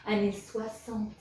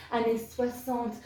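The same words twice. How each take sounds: The two takes are said the same way.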